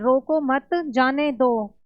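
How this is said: There is a pause right after मत.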